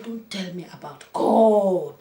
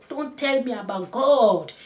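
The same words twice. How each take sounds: First: Slow, louder indignant refusal; retold angry woman, first take; slow angry retort. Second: Higher, louder, slow repeated refusal; retold angry woman, repeated higher; higher angry retort. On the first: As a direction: push the words back at him slowly. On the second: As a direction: climb up in indignation. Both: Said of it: "She said".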